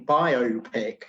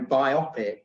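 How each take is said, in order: First: It is said as bio plus pic. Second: It is not said as bio plus pic. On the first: "I always favour the pronunciation biopic because I presume that the word is derived from uh, the phrase biographical motion picture" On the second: "a lot of people use your pronunciation these days and, and go biopic"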